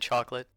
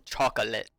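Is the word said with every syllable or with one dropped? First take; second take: one dropped; every syllable. First: The middle syllable of the word is dropped. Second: Every syllable of the word is clearly pronounced. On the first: "rather than chocolate" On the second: "I will like iterate every like so chocolate"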